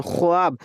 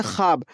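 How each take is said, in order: First: ख्वाब as kho-aab, the w heard; spelling pronunciation. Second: ख्वाब said as khaab, no w; silent wav. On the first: Teacher contrasting writing with reading, ख्वाब said as kho-aab. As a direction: pronounce the written wav in ख्वाब. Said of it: "ख्वाब लिखते हैं". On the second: Teacher showing how it is read, ख्वाब as khaab. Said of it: "लेकिन हम लोग पढ़ते हैं". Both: Shown as a demonstration.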